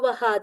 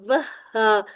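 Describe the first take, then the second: First: The h sound is said once, not doubled. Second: The h sound is said twice, doubled. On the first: The speaker calls it wrong. "ये थोड़ी सी मिस्टेक आ जाती है" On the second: The speaker calls it right. "दोबारा से लाजमी हा को पढ़ना है"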